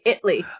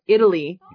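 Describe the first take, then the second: First: The word is squeezed into two syllables. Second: The word is said with three full syllables. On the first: "They say Italy. I-T-L-Y" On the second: "there are Americans who don't say Italy"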